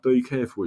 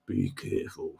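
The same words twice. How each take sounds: First: Said in the usual way. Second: Low, hushed menace in a mimicked accent; mock threatening. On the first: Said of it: "she was taking me off". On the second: Gemma taking off his accent, mock threatening. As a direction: drop it low and soft, like a veiled threat. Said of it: "sounds like a threat".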